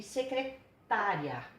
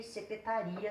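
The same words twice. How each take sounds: First: Secretária slowly, with TÁ stressed. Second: Secretaria with RI stressed. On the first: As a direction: break secretária before a strong TÁ. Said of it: "a sílaba tônica de uma palavra". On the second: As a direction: put the weight on RI in Secretaria. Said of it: "a sílaba tônica tá aqui". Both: Shown as a demonstration.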